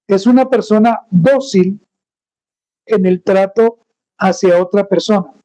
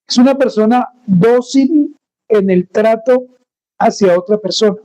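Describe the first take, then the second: No difference in how they are said.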